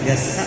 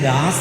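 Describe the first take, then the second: First: The first vowel is kept short. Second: The first vowel is drawn out long. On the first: This is how it is said in the place itself. The speaker calls it right. "ഗസ എന്നാണ് അവിടെ ഉച്ചരിക്കുന്നത്" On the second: This is how many people commonly say it. The speaker calls it wrong. "പലരും ഗാസ എന്ന് പറയുന്നുണ്ട്"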